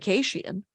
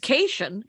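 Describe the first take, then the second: First: The name is said with a foreign-sounding pronunciation. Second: The name is said the plain English way.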